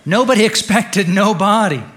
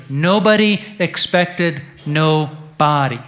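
First: Louder, higher, driven straight through; emphatic repeated punchline. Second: "no body" slowly split into two words; slow wordplay, dropping off on "body"; deliberate punchline. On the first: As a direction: hammer "Nobody expected no body" home. Repeats pun after weak laugh. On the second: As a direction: stretch out "Nobody expected", pause before "body". Punchline pun, first delivery. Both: Real, not acted.

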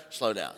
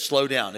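First: Low, soft inner nudge; a soft, low slow down. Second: Said in the usual way. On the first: Retold or imitated. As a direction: murmur it like a quiet inner voice. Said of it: "Have you ever heard that?". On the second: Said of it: "he's the one that has told you".

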